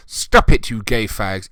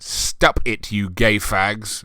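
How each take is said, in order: First: Hammed-up squeal at the start; mock shrieking girl. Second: Said in the usual way. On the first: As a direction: shriek the "Stop it" like a bratty teen girl.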